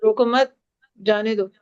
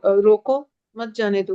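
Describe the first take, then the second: First: "रोको मत" as one phrase, pause, then "जाने दो"; pause after मत. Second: "रोको", pause, then "मत जाने दो" as one phrase; pause after रोको. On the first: Teacher showing students how pauses change meaning, pause only after "रोको मत". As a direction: hold the break until after "मत", then say "जाने दो" separately. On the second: Teacher showing students how pauses change meaning, pause straight after "रोको". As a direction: break right after "रोको", keeping "मत" joined to "जाने दो". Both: Shown as a demonstration. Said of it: "आपने pause में रहने उसका मतलब बदल दिया".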